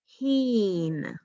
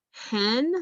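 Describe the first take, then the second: First: 'heen', rhyming with 'seen'; long E pronunciation. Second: 'hen' sounded with the E of 'bed'; short E pronunciation. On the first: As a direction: say 'heen' with a drawn-out 'ee'. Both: Shown as a demonstration. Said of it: "by doing both pronunciations".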